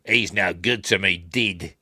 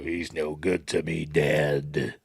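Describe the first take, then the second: First: Mock New Zealand accent, vowels shifted; New Zealand accent with "dead" turned into "did". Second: Slow, low bounty hunter voice; low, deliberate character voice; bounty hunter impression. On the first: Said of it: "don't say it in a New Zealand accent". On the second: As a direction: draw it out like a menacing film villain. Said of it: "can't remember what his voice is like".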